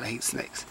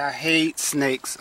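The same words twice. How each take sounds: First: Breathy whisper, much softer and lower; hushed aside of real dread. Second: Slow, each word dragged with weight on hate; drawn-out grumble of disgust; slow heavy disgust. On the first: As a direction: whisper it under your breath in fear. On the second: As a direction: say it slowly, leaning on hate. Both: Real, not acted. Scared of snakes falling out.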